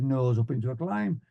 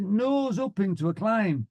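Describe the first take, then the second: First: Student's repeat. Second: High, drawn-out order; instructor's command. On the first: Student pilot answering the flying instructor, obedient repeat. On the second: Flying instructor ordering a climb, instructor's command. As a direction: call it out high and slow. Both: Retold or imitated.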